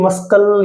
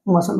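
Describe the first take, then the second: First: A k sound is heard in the middle. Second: No k sound is heard in the middle. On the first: The speaker calls it wrong. "ये मस्कल या मसल नहीं होता" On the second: The speaker calls it right. "मसल होता है"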